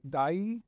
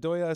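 First: The name is said as one syllable rhyming with eye. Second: The name is said with two syllables, doy-ya. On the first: The speaker calls it wrong. "Dai was another pronunciation, which I don't think is right" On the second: The speaker calls it right. "Doya sounds like what I heard was the most authentic"

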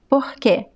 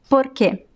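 First: The R sounds like a breathy H. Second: The R is a quick tongue flap. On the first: "It can sound like the H" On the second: "It could sound like the flap T in American English"

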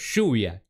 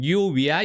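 First: The first sound is a sh-like sound. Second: The first sound is a y-like sound. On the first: This is how Argentines say it. The speaker calls it wrong. "Nosotros lluvia. S-H-U" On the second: This is how speakers in other countries say it. The speaker calls it right. "En todos los otros países dicen lluvia y está bien dicho... pronuncian bien la doble L"

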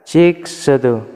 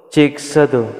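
Both takes have the same delivery.

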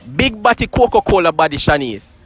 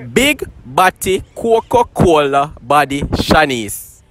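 First: It is said at normal speed. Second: It is said slowly.

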